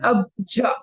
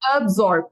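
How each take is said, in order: First: The middle consonant is a 'j' sound. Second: The middle consonant is an 's' sound. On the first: The speaker calls it wrong. "you actually said abja. You did not say sa, you said ja" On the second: The speaker calls it right. "now it is sounding better"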